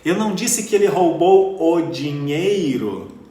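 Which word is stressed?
dinheiro. The word 'dinheiro' carries the main stress. He stole something other than the money. "Então o que foi que ele roubou?"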